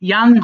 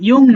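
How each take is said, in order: First: The vowel sounds like 'a', as in 'yang'. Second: The vowel sounds like 'o', as in 'yong'. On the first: The speaker calls it right. "এর উচ্চারণটা হবে আসলে ইয়াং" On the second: The speaker calls it wrong. "ইয়ং না"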